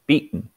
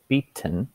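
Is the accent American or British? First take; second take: American; British. First: The T is softened, American style. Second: The T is pronounced clearly, British style.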